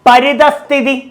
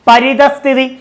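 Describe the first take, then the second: Both takes have the same delivery.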